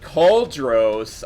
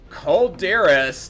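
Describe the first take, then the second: First: The name is said with two syllables. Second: The name is said with three syllables. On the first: The speaker calls it right. "its correct pronunciation" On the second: The speaker calls it wrong.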